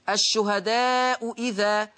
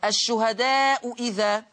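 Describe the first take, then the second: The two takes are said the same way.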